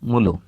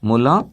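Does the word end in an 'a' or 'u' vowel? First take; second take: u; a. First: The word ends with a rounded 'u' vowel. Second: The word ends with an open 'a' vowel. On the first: This is the easier colloquial form. "মু লু, মুখের অবস্থা সমান, দুটাই গোল। তাহলে এটাই সহজ।" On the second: This is the standard form. "মু, মুখটা গোল হলো। লা, মুখটা চ্যাপ্টা হলো।"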